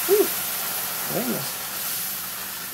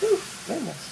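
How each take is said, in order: First: Breathy gasp after touching something hot; hot pan gasp. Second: High, sharp cry of a burn; startled by heat. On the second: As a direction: let it jump up high, caught off guard by the heat. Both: Real, not acted. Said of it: "That's hot".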